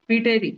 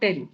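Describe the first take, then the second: First: The word begins with a sounded P. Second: The word begins directly with a T sound. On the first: The speaker calls it wrong. "तो पीटेरी नहीं बोलना" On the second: The speaker calls it right. "पी शांत है।"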